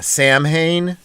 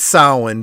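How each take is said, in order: First: The name is said as spelled, 'Sam Hain'. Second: The name is said the Gaelic way. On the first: This is how the show said the name. The speaker calls it wrong. "That's what they called him in it" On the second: This is the real pronunciation of the name. The speaker calls it right. "I know it's Samhain"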